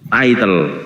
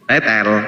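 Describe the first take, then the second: First: The first vowel sounds like 'eye'. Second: The first vowel sounds like 'eh'. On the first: The speaker calls it right. "Title, ya" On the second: The speaker calls it wrong. "Jangan, jangan bilang tetel"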